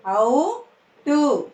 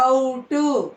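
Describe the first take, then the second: First: "ఔటు" split, rising ఔ, then టు; "ఔటు" in two separate syllables. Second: Said in the usual way. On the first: Shown as a demonstration. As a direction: slowly sound out "ఔటు" with a gap. Teacher sounds out syllables.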